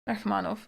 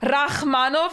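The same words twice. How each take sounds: First: The ch sound is soft and light. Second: The ch sound is a harsh throaty scrape. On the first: The speaker calls it right. "a bit softer" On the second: The speaker calls it wrong. "No, no, no, that's Dutch"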